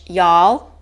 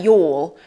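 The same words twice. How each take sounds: First: Y'all in an American accent, rising. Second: Y'all in a British accent, like "yawl". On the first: Teacher showing American English to learners, American accent. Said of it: "it's more in that accent". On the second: Teacher contrasting with the American version, British accent. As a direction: say y'all the British way, rounded vowel. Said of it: "we'd say, like, y'all". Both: Shown as a demonstration.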